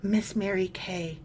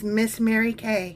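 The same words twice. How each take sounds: First: It is said in a breathy voice. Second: It is said in a plain voice.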